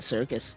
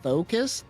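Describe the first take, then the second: First: The name begins with an s sound. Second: The name begins with a th sound. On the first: The speaker calls it right. "I would recommend just calling it the circus" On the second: The speaker calls it wrong. "There's so many layers of wrong here"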